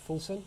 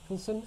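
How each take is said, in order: The two takes are said the same way.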